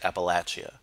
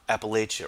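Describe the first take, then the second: First: The word has the local residents' pronunciation. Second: The word has a non-local pronunciation.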